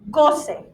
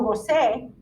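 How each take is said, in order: First: The stress is on the first syllable. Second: The stress is on the last syllable. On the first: The speaker calls it right. "it's goce" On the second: The speaker calls it wrong. "It's not yo goce"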